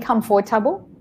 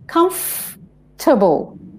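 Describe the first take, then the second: First: The 'or' syllable is pronounced in full. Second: The 'or' syllable is dropped entirely. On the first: "is that person saying comfortable?" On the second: "The or just gets left out"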